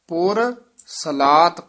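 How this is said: The two words are kept clearly separate. The speaker calls it right. "ਪੁਰ ਵੱਖਰਾ ਹੈ, ਸਲਾਤ ਪਦ ਵੱਖਰਾ ਹੈ"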